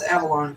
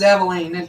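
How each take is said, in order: First: The name ends with a 'lon' sound. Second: The name ends with a 'leen' sound. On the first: The speaker calls it right. "It's Avalon" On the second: The speaker calls it wrong. "I bet everybody says Aveline, don't they? But it's not"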